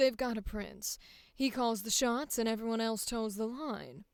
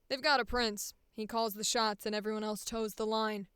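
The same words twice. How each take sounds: First: It is said in a low, sultry voice. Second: It is said in a solid, firm chest voice.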